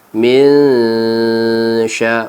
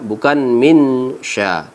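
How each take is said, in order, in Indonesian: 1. N diucapkan panjang sebagai dengung sengau yang tersembunyi. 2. N diucapkan pendek dan jelas. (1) "Kita panjangkan dengan dua harkat serta kita baca dengan samar dengung"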